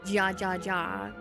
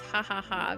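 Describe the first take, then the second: First: Each syllable starts with an English J sound. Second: Each syllable starts with an H sound. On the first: "So I wanted to say ja ja ja" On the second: "I know the J is silent. It's ha ha ha"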